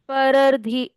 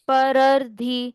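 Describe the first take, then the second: Both takes have the same delivery.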